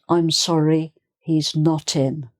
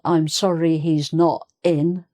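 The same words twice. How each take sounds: First: The T runs on into the following word. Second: The T is separated from the following word. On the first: The speaker calls it right. "can you see where the T runs on" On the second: The speaker calls it wrong. "So it's not"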